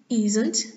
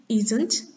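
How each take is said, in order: Both takes have the same delivery.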